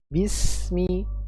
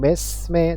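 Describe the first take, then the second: First: Both vowels are said as a thin 'i'. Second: Both vowels are said as an open 'e'. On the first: The speaker calls it right. "mi dan tipis, jangan me" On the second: The speaker calls it wrong. "Besme bukan besme tapi bismi"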